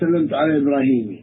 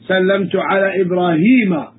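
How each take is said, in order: First: The name ends with an i vowel. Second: The name ends with an a vowel. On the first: The speaker calls it wrong. "You never say" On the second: The speaker calls it right. "We say"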